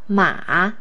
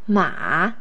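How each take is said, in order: No difference in how they are said.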